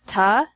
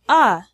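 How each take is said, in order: First: The word is reduced to a short ta. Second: The word is reduced to a bare vowel. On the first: "becomes ta" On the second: "or a"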